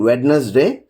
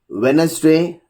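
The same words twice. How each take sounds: First: The D sound is pronounced. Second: The D sound is silent. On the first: The speaker calls it wrong. "We are not saying Wednesday" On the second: The speaker calls it right. "D is not pronounced in the following common words"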